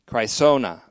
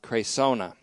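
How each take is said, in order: First: The E-I vowel is not said as 'ay'. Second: The E-I vowel is said as 'ay'.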